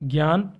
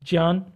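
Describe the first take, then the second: First: The word is said in the everyday spoken form. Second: The word is said in its pure formal form. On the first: The speaker calls it wrong. "इसीलिए हम इसे ज्ञान, विज्ञान और यज्ञ बोलते हैं" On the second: The speaker calls it right. "लेकिन इनका सही उच्चारण क्या है?"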